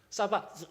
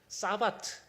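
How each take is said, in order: First: The word ends with a th sound. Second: The word ends with a t sound.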